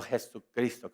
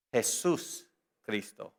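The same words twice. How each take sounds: First: "Jesucristo" run together without a break; one single word. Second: "Jesús Cristo" slowly, split by a clear pause; two separate words. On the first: Preacher contrasts the Spanish compound, said as one word. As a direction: join it up as "Jesucristo", dropping the middle s, low and soft. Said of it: "como una sola palabra". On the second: Preacher shows congregation what the Greek has, as two separate words. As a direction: say "Jesús", stop, then "Cristo", low and soft. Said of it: "No Jesucristo como una sola palabra". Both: Shown as a demonstration.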